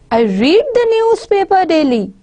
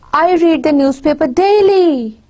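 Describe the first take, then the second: First: The main stress falls on the word newspaper. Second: The main stress falls on the word daily. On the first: What is read is the point. "the more focus is on newspaper, not on the daily thing" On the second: How often the reading happens is the point. "my intonation is rising high towards the end. It's on daily"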